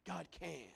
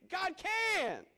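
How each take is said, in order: First: Soft, lower repeat; quiet echo. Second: High, loud declaration; ringing climax. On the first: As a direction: let it fall to a hush. Soft echo after loud climax. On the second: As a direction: proclaim it. Loud climax then quiet echo. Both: Real, not acted.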